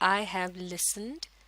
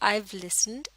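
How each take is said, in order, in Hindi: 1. 'have' शब्द पूरा बोला जाता है। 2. 'Have' छोटा होकर 'I' से जुड़ जाता है।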